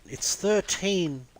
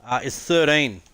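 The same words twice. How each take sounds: First: "It's thirteen" drawn out slowly and pitched higher, stretching thirteen; imitating their thirteen. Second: Said in the usual way. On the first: Mimicking Canadians repeating his Aussie word, slow and high. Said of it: "They're like". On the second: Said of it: "They're like, "It's thirteen".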